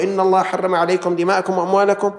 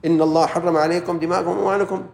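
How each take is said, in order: First: Firm, emphatic recitation; quoting the hadith to a mocker, firm and emphatic; quoting the hadith firmly. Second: Said in the usual way. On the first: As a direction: lay down the hadith with weight. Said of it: "إذا قلت له". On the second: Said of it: "ها؟".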